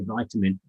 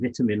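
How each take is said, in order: First: It is said in an American accent. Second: It is said in a non-American accent. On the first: "I'm trying to speak American" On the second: "Instead of saying vitamin"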